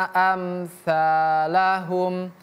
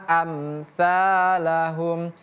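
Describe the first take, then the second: No difference in how they are said.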